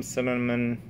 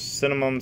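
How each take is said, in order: First: "cinnamon" with an N at the end; final N in cinnamon. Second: "cinnamon" said as "cinnamum"; final M in cinnamon. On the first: Vlogger weighing two forms, "cinnamon" with final N. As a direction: let "cinnamon" finish on N, not M. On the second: Vlogger weighing two forms, "cinnamon" with final M. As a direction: end "cinnamon" with closed lips on M. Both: Shown as a demonstration. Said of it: "seen it spelled both ways".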